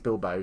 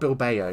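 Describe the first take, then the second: First: The 'a' vowel is dropped. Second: The 'a' vowel is clearly pronounced. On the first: The speaker calls it right. "I don't think you pronounce the A" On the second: The speaker calls it wrong. "Definitely not Bilbao"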